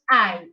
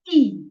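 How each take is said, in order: First: The letter is said like 'eye'. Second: The letter is said like 'ee'. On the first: The speaker calls it wrong. "it's not pronounced I in Italian" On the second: The speaker calls it right. "It's pronounced E"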